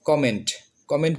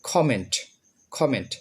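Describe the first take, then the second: First: কমেন্ট said "koment" with an unaspirated k; old pronunciation. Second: কমেন্ট said "kʰoment" with an aspirated k; correct pronunciation. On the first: Teacher showing students the old flat way. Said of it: "উচ্চারণ করতাম". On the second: Teacher drilling students on the aspirated k. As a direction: breathe out the k in কমেন্ট. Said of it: "সঠিক উচ্চারণ হচ্ছে". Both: Shown as a demonstration.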